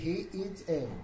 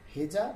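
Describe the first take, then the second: First: The words are separate and 'a' is full. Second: The words are joined and 'a' is reduced.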